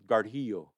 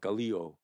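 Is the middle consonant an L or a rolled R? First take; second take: rolled R; L. First: The middle consonant is a rolled R. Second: The middle consonant is an L. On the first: This is the Mohawk way of saying it. "the R being rolled. So we would say" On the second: This is the Oneida way of saying it. "Oneidas would say with an L"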